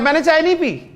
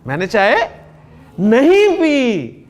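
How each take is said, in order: First: It is said plainly, without extra stress. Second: It is said forcefully, stressing नहीं.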